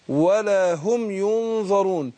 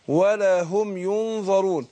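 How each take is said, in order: Both takes have the same delivery.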